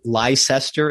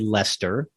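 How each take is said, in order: First: Every written syllable of the name is pronounced. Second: The name is shortened to two syllables. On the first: The speaker calls it wrong. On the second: The speaker calls it right.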